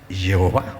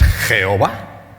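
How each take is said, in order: First: The word begins with a soft Y sound. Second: The word begins with a harsh J sound. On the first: The speaker calls it right. "En todo caso, es" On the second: The speaker calls it wrong. "no es"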